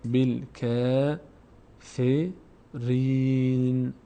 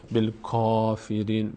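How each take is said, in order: First: بالکافرین drawn out very slowly, bi-l-ke-fe-rin; correct recitation. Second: بالکافرین with a heavy, full first vowel; the wrong بالکافرین, said with a broad a; wrong version. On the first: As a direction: chant بالکافرین slowly with a thin, light k. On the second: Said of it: "بالکافرین اشتباه است". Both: Shown as a demonstration.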